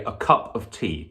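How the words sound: Stress falls on cup and tea, alternating. The speaker calls it right. "to tum to tum"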